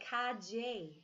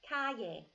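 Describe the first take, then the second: First: The double L sounds like a j. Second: The double L sounds like a y.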